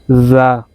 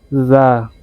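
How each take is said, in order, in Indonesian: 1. Bunyi pertama berada di antara d dan z. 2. Bunyi pertama berada di antara d dan z.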